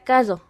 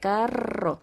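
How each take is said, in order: First: The R is not trilled. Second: The R is trilled with a vibrating tongue. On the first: A small child who cannot yet say the R said it. The speaker calls it wrong. "Pero antes de eso no podía" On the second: An adult showing how the R should sound said it. The speaker calls it right. "cómo vibra cuando pronunció la R"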